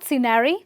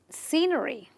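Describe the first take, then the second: First: The stress is not on the first syllable. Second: The stress is on the first syllable. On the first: The speaker calls it wrong. "not scenery" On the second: The speaker calls it right. "but scenery ... you stress on the C"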